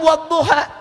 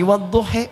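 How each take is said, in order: First: The word ends with an open a vowel. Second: The word ends with an e-like vowel.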